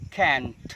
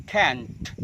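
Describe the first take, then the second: Both takes have the same delivery.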